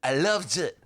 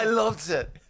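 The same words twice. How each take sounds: First: Put-on Simon Cowell British accent. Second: Higher British judge voice; British accent. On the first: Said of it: "That was my Simon". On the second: Retold or imitated. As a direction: say it like a posh TV judge. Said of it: "my British accent".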